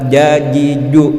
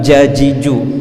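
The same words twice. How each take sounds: First: The consonants are said without a puff of breath. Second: The consonants are said with a puff of breath. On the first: The speaker calls it right. "tidak boleh ada hembusan angin ketika mengucapkannya, sehingga bunyinya adalah" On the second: The speaker calls it wrong.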